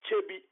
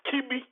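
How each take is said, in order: First: The name begins with a 'ch' sound. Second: The name begins with a 'k' sound. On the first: The speaker calls it right. "the traditional capital is called Chebi" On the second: The speaker calls it wrong. "Because Europeans could not pronounce Chebi, they pronounce it Kibi"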